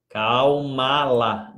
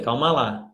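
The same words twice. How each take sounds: First: Very slow, stretched calma lá; soothing the live chat, drawn right out; drawn-out calm down. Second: Said in the usual way. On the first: Shown as a demonstration. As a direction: stretch each syllable of calma lá slowly. Calming viewers, said twice.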